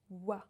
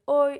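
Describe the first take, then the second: First: The letters are said as wa. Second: The letters are said as oi. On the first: The speaker calls it right. "it's wa, just wa" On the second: The speaker calls it wrong. "It's not oi"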